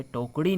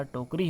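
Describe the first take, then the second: First: टोकड़ी with retroflex flap; hard flap in टोकड़ी; incorrect pronunciation. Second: टोकरी with plain R; straight-tongued R in टोकरी; correct pronunciation. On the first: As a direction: say टोकड़ी with curled-tongue Ṛ. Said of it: "नहीं होता". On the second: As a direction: say टोकरी as "tokri", tapped R. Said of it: "टोकरी होता है". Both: Shown as a demonstration.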